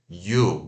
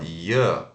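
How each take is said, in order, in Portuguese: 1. A vogal é um som de oo pleno e longo. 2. A vogal é curta e reduzida, como em ya. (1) "Ao invés de you" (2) "ou o e rápido e o schwa"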